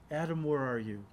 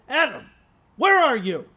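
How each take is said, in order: First: The voice is soft and tender. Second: The voice is harsh and stern. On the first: He is heartbroken and longs for him. The speaker calls it right. "the tender voice of a heartbroken father" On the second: He is angry and about to punish. The speaker calls it wrong. "It was like the harsh voice of an arresting officer"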